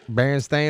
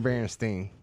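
First: The last syllable rhymes with 'rain'. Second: The last syllable rhymes with 'line'. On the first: "Baron Stain or Baron Stein?" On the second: "Baron Stain or Baron Stein?"

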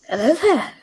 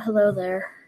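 First: It is said in a put-on accent. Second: It is said in his normal voice.

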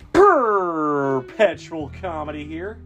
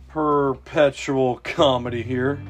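First: It is said with more enthusiasm. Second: It is said with little enthusiasm.

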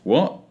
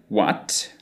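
First: The final T is a glottal stop. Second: The final T is fully released.

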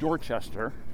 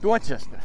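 First: It is said plainly, the way it's spelled. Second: It is said in the local accent. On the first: The speaker calls it wrong. "it's not Dorchester" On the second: The speaker calls it right. "if you say it properly"

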